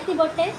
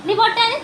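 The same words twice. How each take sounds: First: Said in the usual way. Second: High coaxing question. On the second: Real, not acted. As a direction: ask where's your bindi, bright and high. Mother asks baby, second more gently.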